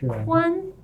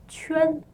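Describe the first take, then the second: First: The syllable begins with a 'kw' sound. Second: The syllable begins with a 'ch'-like sound. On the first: The speaker calls it wrong. "it's not pronounced Quan" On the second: The speaker calls it right. "it's Chuan"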